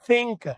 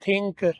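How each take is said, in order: First: The th is breathy, air through teeth on tongue. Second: The th is a stopped sound, tongue on palate. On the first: The speaker calls it right. "जुबान के ऊपर मैंने दांत रख लिए और पीछे से मैं हवा देता हूं" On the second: The speaker calls it wrong. "जुबान को तालु के साथ लगाते हैं"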